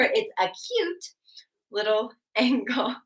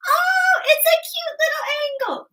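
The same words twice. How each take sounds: First: Said in the usual way. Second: Very high, loud squeal for a little angle; high-pitched cutesy voice. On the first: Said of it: "that's gonna help you remember". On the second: Shown as a demonstration. Teacher voicing a tiny angle as a memory trick, high-pitched. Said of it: "clearly not my high-pitched voice".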